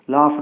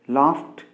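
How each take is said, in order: First: The ending is a voiced d sound. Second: The ending is a voiceless t sound. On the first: The speaker calls it wrong. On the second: The speaker calls it right.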